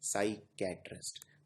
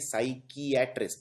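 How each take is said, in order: First: The middle is said as 'kai', three syllables. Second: The middle is said as 'kee-ah', four syllables. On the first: This is how it is actually spoken. "उच्चारण करने में आता है साइकैट्रिस्ट" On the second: This follows the written spelling. "लिखने में आता है ये साइकियाट्रिस्ट"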